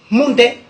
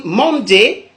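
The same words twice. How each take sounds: First: "Monday" as mon-dè, falling; Godié pronunciation. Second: "Monday" slow, as man-dé; English pronunciation. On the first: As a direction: say "Monday" with a nasal on and short è. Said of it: "en Gaudier". (« Monday » à la godié, prononcé mon-dè) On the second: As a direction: draw out "Monday", first vowel near a. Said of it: "En anglais". (« Monday » à l'anglaise, prononcé man-dé) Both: Shown as a demonstration.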